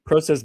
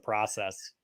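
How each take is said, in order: First: It is pronounced the Canadian way. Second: It is pronounced the American way. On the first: "process being Canadian" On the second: "for the Americans, it's a process"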